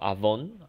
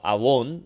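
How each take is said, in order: First: The middle consonant is a V sound. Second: The middle consonant is a W sound. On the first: This follows the modern Hebrew reading. "wow itu dibaca v" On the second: This follows the ancient Hebrew reading. "itu dibaca wow atau w"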